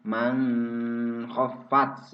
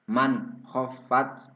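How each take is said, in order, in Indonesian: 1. Bunyi n samar dengan bunyi sengau ke konsonan berikutnya. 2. Bunyi n diucapkan dengan jelas dan tegas. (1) "Tidak boleh dibaca man khaffat" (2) "itu idhar jelas"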